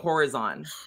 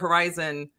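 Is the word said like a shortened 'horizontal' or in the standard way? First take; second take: horizontal-like; standard. First: The word sounds like the start of horizontal. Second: The word has its usual standard pronunciation.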